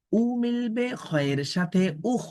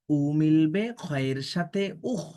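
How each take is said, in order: First: উ lifted high at the start, then উখ said clearly; emphatic model reading. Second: উখ drawn out slowly, each sound kept apart; slow right down on উখ; slow careful reading. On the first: Teacher shows students how to pronounce উখ, high emphatic উ. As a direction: push উ up high, then land উখ. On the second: Teacher reads the syllable slowly for students to follow. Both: Shown as a demonstration. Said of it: "কিভাবে উচ্চারণ করছি দেখুন".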